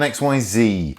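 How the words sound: The letters are said the American way.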